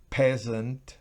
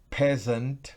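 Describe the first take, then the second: Both takes have the same delivery.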